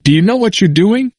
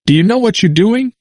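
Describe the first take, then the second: First: High, insistent question again, finger wagging; a hint of a stern elder; repeated challenge. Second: Put-on a high, forceful old man's challenge; stern elder demanding an answer; forceful question. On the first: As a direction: push the question harder. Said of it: "asked again". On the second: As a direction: press him hard with the question. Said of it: "and said forcefully". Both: A narrator's reading.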